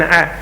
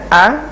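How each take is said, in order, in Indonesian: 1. Vokalnya dimulai dengan penyempitan tenggorokan seperti "ain". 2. Vokalnya dimulai dengan polos, tanpa penyempitan tenggorokan. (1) "jangan A" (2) "A-nya itu jangan mirip ke ain"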